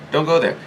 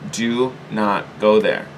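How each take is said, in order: First: "Don't go there" higher and brisk; short higher-pitched warning; quick repeated warning. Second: Slow, deliberate "do not go there"; emphatic warning. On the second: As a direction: DO NOT GO THERE slow, each word weighted. Warning listeners off worrying. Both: Real, not acted.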